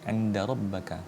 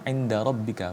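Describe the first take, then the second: First: The vowel after the double b is a. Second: The vowel after the double b is i. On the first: The speaker calls it wrong. "bukan inda rabbaka" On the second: The speaker calls it right. "inda rabbika, bukan inda rabbaka"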